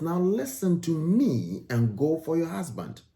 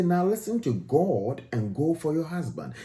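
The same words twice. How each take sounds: First: "me" pushed up and landed on as the key word; stress on me. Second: Said in the usual way. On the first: Retold or imitated. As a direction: lean hard on "me" to show she meant herself. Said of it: "It says". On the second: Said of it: "She didn't say".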